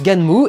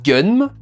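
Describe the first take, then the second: First: It is said as two syllables, gan-mu. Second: It is said as one short syllable. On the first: The speaker calls it right. "Donc ça se prononce Ganmu" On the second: The speaker calls it wrong. "pendant des années j'ai dit Gun"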